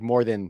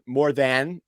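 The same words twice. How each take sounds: First: The word than is quick and sounds like then. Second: The word than is said slowly and fully. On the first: "if I'm doing it in a fast sentence" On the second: "when I say like more more than"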